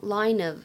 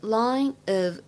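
First: The two words are linked into one. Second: The two words are said separately.

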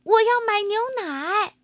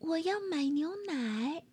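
First: It is shouted in a loud voice. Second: It is said in a small, quiet voice.

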